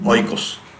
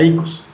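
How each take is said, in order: First: The word begins with an 'oy' sound. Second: The word begins with an 'ee' sound. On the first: The speaker calls it wrong. "se escribe como el yogur" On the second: The speaker calls it right. "pero se pronuncia ikos"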